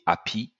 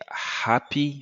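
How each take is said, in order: First: The h sound at the start is dropped. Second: The h sound at the start is pronounced. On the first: "French speakers will say happy, because H is simply silent" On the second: "instead of saying happy"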